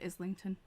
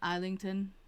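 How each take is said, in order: First: The s sound in the name is clearly heard. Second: The s sound in the name is not heard. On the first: This is how the hosts say the name. "I say Islington" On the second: This is how the author says his own name. "he says uh, Islington instead of Islington. It's like, dude, there's an S in there"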